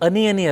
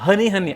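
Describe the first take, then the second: First: The opening h sound is weak. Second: The opening h sound is strong. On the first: The speaker calls it wrong. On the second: The speaker calls it right.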